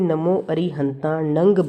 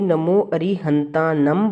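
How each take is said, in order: First: The last word ends with an ng sound. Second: The last word ends with an m sound. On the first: "कोई नमो अरिहंतानंग बोलते हैं" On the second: "कोई नमो अरिहंतानम बोलते हैं"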